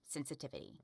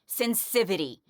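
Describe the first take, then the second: First: All syllables are said, including the 'ti'. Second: The 'ti' syllable is dropped from the word. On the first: The speaker calls it right. "make sure you can pronounce sensitivity" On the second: The speaker calls it wrong. "not sensivity"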